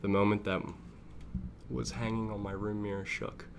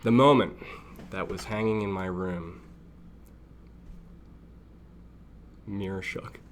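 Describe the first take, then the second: First: Said in the usual way. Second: Loud "The moment", then a break after "room"; misplaced emphasis. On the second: Real, not acted. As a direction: read "Mirror shook" cut off as its own sentence. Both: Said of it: "didn't put the emphasis on the wrong syllable".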